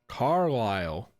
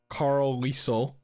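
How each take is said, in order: First: The name ends with a 'lyle' sound. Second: The name ends with a 'leesel' sound. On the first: The speaker calls it right. "That makes sense" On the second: The speaker calls it wrong. "like I was originally thinking"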